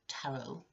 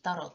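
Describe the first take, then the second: First: It is said with an English pronunciation. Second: It is said with a Finnish pronunciation. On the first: "in English, tarot is pronounced tarot" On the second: "the way we pronounce that word in Finnish"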